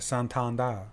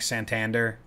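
First: The name is said softly and daintily. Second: The name is said plainly and hard. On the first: This is the name as he now wants it said. "it's the really effeminate sounding version. So just be dainty with it" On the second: This is the old way of saying his name. "he went from like Santander"

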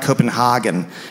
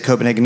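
First: The city name is said with German-style pronunciation. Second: The city name is said without German-style pronunciation. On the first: The speaker calls it wrong. "not Copenhagen, because that's what the Nazis called it" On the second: The speaker calls it right. "you have to say Copenhagen"

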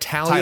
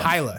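First: The name is said with three syllables, Talia. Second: The name is said with two syllables, Tyla. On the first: The speaker calls it wrong. "Am I saying that right?" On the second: The speaker calls it right. "It's Tyla"

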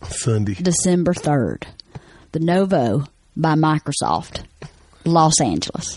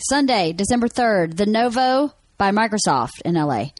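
First: It is said in a Southern country accent. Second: It is said in a plain, neutral accent.

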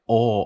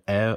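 First: A Minnesotan O, made far back in the mouth. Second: A Western O, made forward in the mouth.

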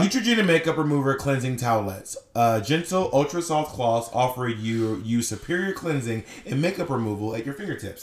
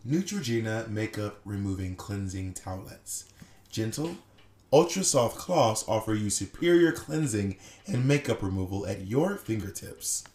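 First: It is read in the speaker's natural voice. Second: It is read in a put-on soothing male voice.

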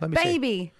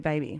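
First: The word has a thick, exaggerated accent. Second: The word has the speaker's natural accent. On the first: Someone else said it this way. The speaker calls it wrong. "She did it like really bad. Like" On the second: This is how the speaker says it. The speaker calls it right. "but I would say baby"

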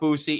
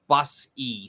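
First: The first vowel sounds like 'oo'. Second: The first vowel sounds like 'uh'. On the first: The speaker calls it wrong. "it's not Boosie" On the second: The speaker calls it right. "It's Bussey"

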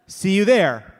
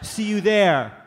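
First: It sounds short and annoyed. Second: It trails off without ending.

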